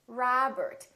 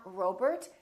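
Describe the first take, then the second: First: "Robert" as "Rahbert"; wide "ah" starting "Robert"; open ah vowel. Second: "Robert" as "Rohbert"; long oh starting "Robert"; mispronounced "Robert", O as spelled; wrong O demo. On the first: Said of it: "it's Robert". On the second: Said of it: "Make sure that you don't say O". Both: Shown as a demonstration.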